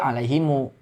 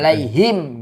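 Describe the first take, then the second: First: The final m is followed by a 'u' vowel. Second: The word ends on a bare, closed m. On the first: The reciter continues into the next word. "dibaca wasol" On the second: The reciter stops after this word. "Ketika wakof mah tetap dibacanya sukun"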